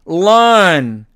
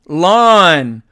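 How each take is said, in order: The two takes are said the same way.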